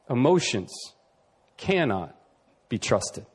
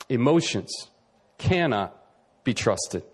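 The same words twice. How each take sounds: First: "Emotions" "cannot" "be trusted" each set apart by long pauses and falling. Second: "Emotions" "cannot" "be trusted" each set apart by long pauses and falling; slow emphatic pauses. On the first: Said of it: "emphatic pauses". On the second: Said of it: "emphatic pauses repeated". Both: Shown as a demonstration. Preacher driving home his main point with pauses. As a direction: drop each word alone, falling to a low "trusted".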